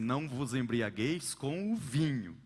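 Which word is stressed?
vinho. The emphasis falls on the word vinho. Other drinks besides wine are allowed. "Outros colocam o acento no vinho"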